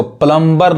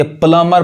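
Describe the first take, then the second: First: प्लम्बर said as "plum-ber", B sounded; B pronounced. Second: प्लम्बर said as "plummer", B left out; silent B. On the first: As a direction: put an audible B after M in प्लम्बर. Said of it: "प्लम्बर नहीं कहते". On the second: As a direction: go from M straight to the ending in प्लम्बर. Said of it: "बी क्या है, silent है". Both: Shown as a demonstration.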